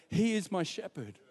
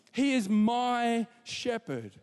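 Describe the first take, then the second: First: Said in the usual way. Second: He drawn out slow, leaning hard on He; slow, stress on he. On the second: Shown as a demonstration. Preacher stressing that the shepherd is personal, slow and weighty. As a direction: say He slowly and with weight. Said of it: "it's personal".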